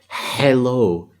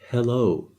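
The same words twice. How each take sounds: First: The first H is harsh, from the throat. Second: The first H is light and breathy. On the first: "if I wanted to say hello with a H, I would go" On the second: "The H sound is like very light"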